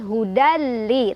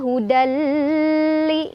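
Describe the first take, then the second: First: The n merges into a short, pressed l. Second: The merged l is held too long. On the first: The speaker calls it right. "tapi hudali, tekan" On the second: The speaker calls it wrong. "Bukan juga hudali, nggak usah lama-lama"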